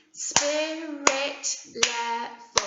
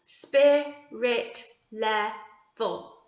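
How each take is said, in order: First: Very slow, syllable by syllable; syllables pulled apart for clapping; broken into sounds. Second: Very slow, each syllable apart; syllables counted out slowly; counting syllables. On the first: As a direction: clap each syllable slowly. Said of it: "Let's break it up into the sounds". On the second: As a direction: stretch it out to count the beats. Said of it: "Let's count how many syllables". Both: Shown as a demonstration.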